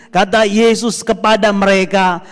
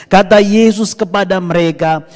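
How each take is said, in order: The two takes are said the same way.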